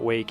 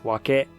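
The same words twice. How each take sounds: First: It is said as one syllable, like English. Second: It is said as two syllables, wa-ke. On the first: The speaker calls it wrong. "but it is not wake" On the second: The speaker calls it right. "That is the proper pronunciation of the word"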